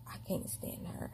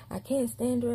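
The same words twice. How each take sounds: First: Whispered under the breath; whispered complaint. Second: Said in the usual way. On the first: Retold or imitated. Miss Margaret grumbling about her, in a whisper. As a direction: hiss it privately, not meant to be heard.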